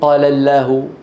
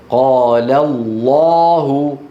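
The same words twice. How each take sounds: First: The L in Allah is light and thin. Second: The L in Allah is heavy and velarized. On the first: The speaker calls it wrong. "ولا يقولون" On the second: The speaker calls it right. "تفخمها العرب بإجماع كل القبائل العربية في كلمة الله إن سبقت بفتحة أو ضمة"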